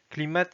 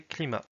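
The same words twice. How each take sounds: First: Climat with the final t sounded; Russian pronunciation. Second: Said in the usual way. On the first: Shown as a demonstration. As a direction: say "climat" as Russian "klee-MAT". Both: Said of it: "climat, c'est climat".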